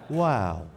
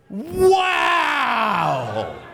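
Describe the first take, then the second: First: It is said with mild excitement. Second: It is said with great excitement.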